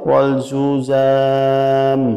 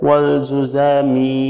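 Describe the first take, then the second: First: The word ends on the consonant m. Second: The word ends with an added i vowel. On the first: The reciter stops here. "এখানে যদি আপনি ওয়াকফা করেন মানে থামেন" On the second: The reciter continues without stopping. "যদি না থেমে এটা মিলায় পড়তে চান"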